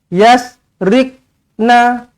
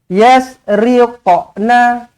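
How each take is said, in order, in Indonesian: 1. Bunyi q ditahan tanpa lantunan. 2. Bunyi q melantun dengan bunyi 'qa'. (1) "tidak melantun langsung" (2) "Huruf Qaf dia kena qa"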